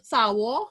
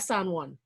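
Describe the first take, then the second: First: The final consonants are dropped from the name. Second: The final n consonant is pronounced clearly. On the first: This is the local way of naming the place. The speaker calls it right. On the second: This sounds like a place somewhere else. The speaker calls it wrong.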